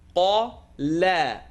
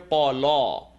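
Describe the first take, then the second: First: The vowel is said light and thin. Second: The vowel is said heavy and full. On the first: The speaker calls it right. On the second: The speaker calls it wrong.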